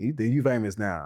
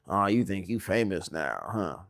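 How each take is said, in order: First: It sounds light, joking and sincere. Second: It sounds snide, sarcastic and mocking.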